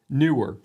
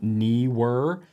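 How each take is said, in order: First: The first syllable sounds like 'new'. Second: The first syllable sounds like 'knee'. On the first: The speaker calls it right. "the company does say newer" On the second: The speaker calls it wrong. "I was taking into account that extra E"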